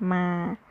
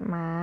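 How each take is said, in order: First: มา held on a level middle pitch. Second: หมา soft, rising in pitch from low. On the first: Teacher shows the word without H, mid tone on มา. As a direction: say มา evenly, without a rise. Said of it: "is pronounced with mid tone". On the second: Teacher gives the Thai word for dog, rising tone on หมา. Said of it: "for rising tone". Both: Shown as a demonstration.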